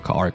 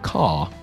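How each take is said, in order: First: American accent, with the R clearly heard. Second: Classic English accent, with no R sound.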